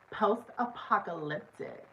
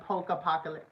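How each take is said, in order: First: It is said in a valley girl accent. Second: It is said in the speaker's plain accent. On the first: The speaker calls it right. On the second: The speaker calls it wrong.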